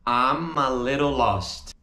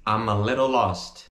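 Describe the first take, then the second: First: "I'm a" as a stretched "amma" before little lost; reduced, drawn out. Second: "I'm a little lost" as a quicker linked run; joined up. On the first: Teacher demonstrates the reduced form, slowly linked. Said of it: "você pode dizer am". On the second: Teacher repeats the reduced phrase, smoothly joined. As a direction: run "amma little lost" together, a little lower. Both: Shown as a demonstration.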